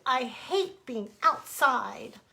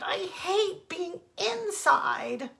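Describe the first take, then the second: First: Slow, louder whining complaint; whiny shout. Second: Much higher, slow, louder whining; high whiny wail. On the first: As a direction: stretch out each word like a sulking child. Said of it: "he cried and shouted". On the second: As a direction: wail it out like a tantrum. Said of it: "he cried and said". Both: Acted.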